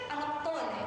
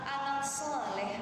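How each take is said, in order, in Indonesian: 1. Kata kedua diawali dengan bunyi t yang cadel. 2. Kata kedua diawali dengan bunyi s yang jelas. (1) "Tapi kalau ibu dicadelin" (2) "Kita gendong anak"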